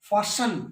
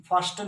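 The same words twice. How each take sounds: First: 'fasten' said as 'fassen'; fasten with silent t. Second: Wrong 'fasten', t pronounced; fasten with t sounded. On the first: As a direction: drop the t in fasten. ('फासन', 'ट' silent) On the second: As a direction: put a t into fasten. ('फास्टन', 'ट' बोलकर गलत) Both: Shown as a demonstration. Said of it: "फास्टन नहीं".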